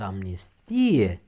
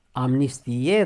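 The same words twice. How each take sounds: First: Amnistie with a long stressed i, falling; noun stress on amnistie. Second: Amnistie stressed on final e, rising; verb stress on Amnistie. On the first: Teacher shows the noun form, amnistie slowly stressed on i. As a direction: draw out 'amnis-TI-e' in amnistie. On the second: Teacher shows the verb form, Amnistie stressed at the end. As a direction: say 'amnisti-E' for Amnistie. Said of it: "dacă e vorba de verb". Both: Shown as a demonstration.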